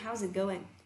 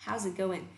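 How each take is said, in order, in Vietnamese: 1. Going kết thúc sớm với âm n. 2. Going kết thúc sớm với âm n.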